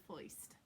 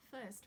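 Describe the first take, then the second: First: "foist" with an oy in place of the R; New York oy. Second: Said in the usual way. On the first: Shown as a demonstration. Teacher swaps first for the New York version, oy sound. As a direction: say "foist" to rhyme with moist. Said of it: "we're gonna say foist". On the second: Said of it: "we are not going to say first".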